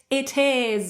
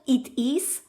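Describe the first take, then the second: First: The two words are joined together. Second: The two words are said separately. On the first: The speaker calls it right. "but it is. And you can actually link it" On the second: The speaker calls it wrong. "not it is"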